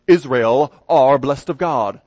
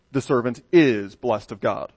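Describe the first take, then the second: First: Slow, louder British accent on "Israel are blessed of God". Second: Said in the usual way. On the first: Shown as a demonstration. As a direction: proclaim it like a British announcer. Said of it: "put it in a British accent". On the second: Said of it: "instead of".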